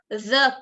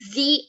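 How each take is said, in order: First: The word 'the' comes before a consonant sound. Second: The word 'the' comes before a vowel sound. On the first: "When it's with um, consonants, it's the president" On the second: "When we have vowels, we say the alphabet"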